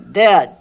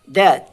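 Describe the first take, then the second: The two takes are said the same way.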